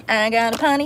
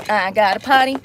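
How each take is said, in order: First: Sing-song chant of potty; sung, tease the line as a little tune; sung playfully. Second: Said in the usual way. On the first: Shown as a demonstration. Sung, vlogger announcing a bathroom trip, sing-song.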